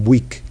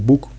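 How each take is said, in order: First: Book is said in a Scottish accent. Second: Book is said in a standard English accent. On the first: "aquí en Escocia, según parece, pues dicen week" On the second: "un inglés clásico dice book"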